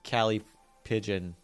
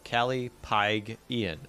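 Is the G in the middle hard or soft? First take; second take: soft; hard. First: The middle G is soft, like in pigeon. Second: The middle G is hard, like in pig. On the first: The speaker calls it wrong. "I know it's not actually Callie Pigeon" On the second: The speaker calls it right. "Apparently it's a hard G"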